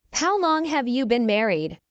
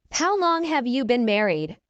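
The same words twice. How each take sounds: The two takes are said the same way.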